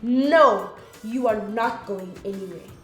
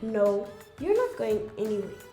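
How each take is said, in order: First: The word no is loud and emotional. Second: The word no is calm, followed by pause.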